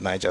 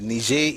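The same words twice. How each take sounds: First: The name is pronounced the Latin way. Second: The name is pronounced the French way. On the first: "the Latin word Niger" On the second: "the French word or French way of pronouncing"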